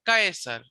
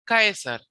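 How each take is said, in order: Both takes have the same delivery.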